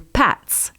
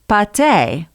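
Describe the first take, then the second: First: The word ends with a 't' sound. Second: The word ends with an 'ay' vowel. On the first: The speaker calls it right. "The actual pronunciation is supposed to be closer to pâtes" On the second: The speaker calls it wrong. "I thought it was pronounced pâté"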